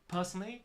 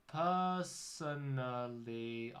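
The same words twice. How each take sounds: First: The word is rushed out very quickly. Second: The word is drawn out very slowly.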